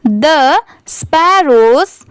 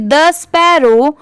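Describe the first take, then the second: First: "The sparrows" said slowly with a clear s at the end of "sparrows"; correct plural s. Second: "the sparrow" said without the final s sound; wrong, no s. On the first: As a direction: stretch it out and sound the final s in "sparrows". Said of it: "तो कैसे पढ़ेंगे?". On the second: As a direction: drop the s at the end of "sparrow". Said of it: "तो ये सही नहीं होगा". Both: Shown as a demonstration.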